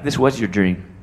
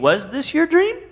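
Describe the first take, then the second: First: It sounds certain, like a firm statement. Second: It sounds questioning, like asking.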